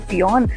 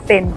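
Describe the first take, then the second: First: The name is said with two syllables. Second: The name is said with one syllable. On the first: It is read from the spelling. "अगर हम अपनी एक्सेंट में स्पेलिंग पढ़ें तो उसको बोलेंगे" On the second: It is said the way local people say it. "आयरलैंड में लोग इसको प्रोनाउंस करते हैं"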